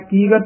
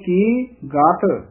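First: The two words run together without a pause. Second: A short pause comes before the second word. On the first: The speaker calls it wrong. "ਕੀ ਗਤ ਨੀ ਕਹਿ ਦੇਣਾ" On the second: The speaker calls it right. "ਥੋੜਾ ਜਿਹਾ ਠਹਿਰਾ ਦੇ ਕੇ ਫਿਰ ਬੋਲਣਾ ਗਤ"

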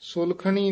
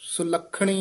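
First: The kh consonant is single and said loosely. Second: The kh consonant is doubled and said tightly. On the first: The speaker calls it wrong. "ਸੁਲਖਣੀ ਨਹੀਂ ਕਹਿਣਾ" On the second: The speaker calls it right. "ਸੁਲੱਖਣੀ ਉਚਾਰਨ ਕਰਨਾ"

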